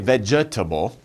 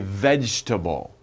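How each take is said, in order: First: The middle E sound is pronounced. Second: The middle E sound is dropped. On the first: The speaker calls it wrong. "Don't say vegetable" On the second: The speaker calls it right. "we say vegetable"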